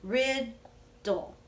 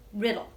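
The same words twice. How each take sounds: First: "Riddle" stretched slowly as "Rid-dle" with a gap between syllables; teacher breaking the word "Riddle" apart with students; broken into syllables. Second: Said in the usual way. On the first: Shown as a demonstration. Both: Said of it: "Will you break riddle with me".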